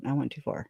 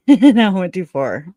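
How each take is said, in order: First: Said in the usual way. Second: Laughing through the words, slower; amused, laughing repeat. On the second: Real, not acted. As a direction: giggle it out. Laughing rereads her own post.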